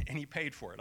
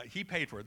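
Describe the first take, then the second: First: "paid" leaned on with a falling tune; stress on paid. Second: "He" pushed up and stressed, rest falls away. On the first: Pastor joking about lunch, stress on "paid". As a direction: punch the word "paid", drop after it. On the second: Pastor ribbing friend Mike, stress on "He". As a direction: hit "He" hard, then let it drop. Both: Shown as a demonstration.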